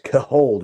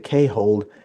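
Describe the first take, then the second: First: The first syllable sounds like 'ka'. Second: The first syllable sounds like the letter K. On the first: The speaker calls it right. "It's Cahold" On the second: The speaker calls it wrong. "I was saying it wrong. I used to say K-hold"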